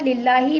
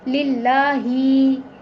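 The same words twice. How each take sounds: First: The final vowel is short. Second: The final vowel is stretched long. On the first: The speaker calls it right. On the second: The speaker calls it wrong.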